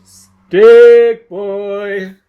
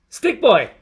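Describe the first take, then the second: First: Much louder, higher yell, Stick held long and level; long drawn-out yell. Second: Put-on higher, louder jeering shout of the name, falling on Boy; loud taunting call. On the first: Acted. Someone yelling for Stick Boy from far off, long drawn-out yell. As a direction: bellow it across the whole town. Repeated call, longer and louder. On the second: Someone taunting Stick Boy, jeering shout. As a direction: call him out across the street.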